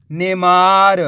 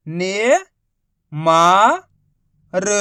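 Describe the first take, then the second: First: Said in the usual way. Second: ने-मा-र stretched out slowly; syllable by syllable. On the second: Shown as a demonstration. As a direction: break नेमार into three slow parts. Teacher spells syllables slowly.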